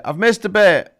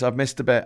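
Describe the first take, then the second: First: Hushed self-correction; whispered aside. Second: Said in the usual way. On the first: Real, not acted. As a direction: whisper I've missed a bit, no voice. Repeats it to herself.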